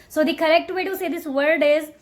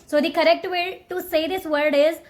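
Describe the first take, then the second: No difference in how they are said.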